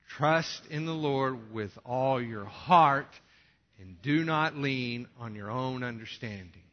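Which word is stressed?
heart. The word heart is stressed loudly.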